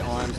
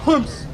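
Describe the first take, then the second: First: It is said plainly in a normal speaking voice. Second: It is barked forcefully from the diaphragm, distorted. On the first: The speaker calls it wrong. "you don't say arms" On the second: The speaker calls it right. "you say it from your diaphragm, and it comes out as humps"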